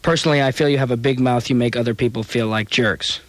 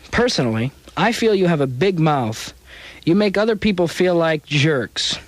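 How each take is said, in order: First: It runs on without a stop before 'You make'. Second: A full stop pause comes before 'You make'. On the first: The speaker calls it right. "it's actually only one in this letter" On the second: The speaker calls it wrong. "I read that as if it were two sentences"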